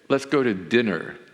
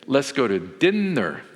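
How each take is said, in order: First: The n in dinner is short and single. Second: The n in dinner is held long, doubled. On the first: "So here, I may say" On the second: "you honor the, the two consonants"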